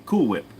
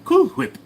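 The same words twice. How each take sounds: First: Said in the usual way. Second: High, loud cartoon baby puffing the H in "Whip"; Stewie. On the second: Baby mispronounces Cool Whip for Brian, high cartoon voice. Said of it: "Can I do Stewie from Family Guy?".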